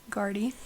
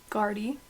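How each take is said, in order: Both takes have the same delivery.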